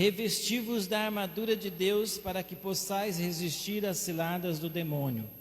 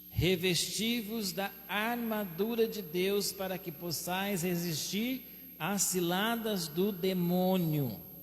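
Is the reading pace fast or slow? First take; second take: fast; slow. First: The sentence is read at a fast pace. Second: The sentence is read at a slower pace. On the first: "Eu li rapidinho" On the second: "agora eu quero ler um pouquinho mais devagar"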